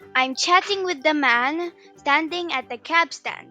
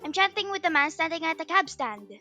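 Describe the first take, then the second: First: The sentence is said at a normal speed. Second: The sentence is said at a very fast speed.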